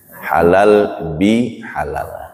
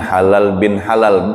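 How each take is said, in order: First: The middle word has no n sound. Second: The middle word ends with an n sound. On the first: The speaker calls it right. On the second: The speaker calls it wrong.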